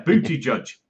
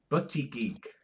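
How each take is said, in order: First: The name ends with a soft 'judge' sound. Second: The name ends with a hard 'geek' sound. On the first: The speaker calls it right. "That that's how you pronounce it" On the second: The speaker calls it wrong. "like something really weird"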